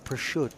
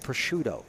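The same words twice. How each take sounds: First: The final O sound is dropped. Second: The final O sound is pronounced. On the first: "how they say prosciutto" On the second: "instead of prosciutto"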